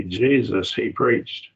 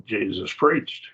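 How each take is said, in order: First: JESUS set apart, then "he preached" lifted; emphatic literal rendering. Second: Said in the usual way. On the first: Shown as a demonstration. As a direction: pause after Jesus, push "he preached". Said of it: "how we literally translate it". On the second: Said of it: "we missed the point that it's emphatic".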